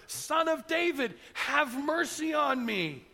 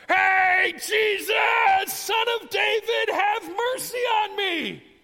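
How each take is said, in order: First: High, slow call, not at full volume; acted insistent shout. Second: High, drawn-out yell over a crowd; full-out shout. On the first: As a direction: call out again, stretching every word. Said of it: "He only shouts louder". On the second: Acted. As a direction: holler at the top of your voice. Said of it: "he starts to shout".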